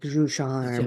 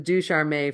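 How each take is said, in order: First: It is said with a French accent. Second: It is said with a plain English accent. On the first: It sounds classy. The speaker calls it right. "just say it with an accent like du charme" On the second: This is how most people say it. The speaker calls it wrong. "Everyone says says du charme for me"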